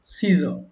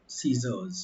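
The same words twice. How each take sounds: First: "scissor" said with no final s sound, as the mistake; wrong singular form. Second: "scissors" with a clear final s sound; correct plural form. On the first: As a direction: say "scissor" ending flat on r, no s. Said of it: "ये गलत है". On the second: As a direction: end "scissors" on a distinct z-like s. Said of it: "सीजर न बोल के we will call scissors". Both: Shown as a demonstration.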